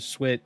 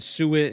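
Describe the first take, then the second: First: The vowel after the S is barely heard. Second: The vowel after the S is fully pronounced.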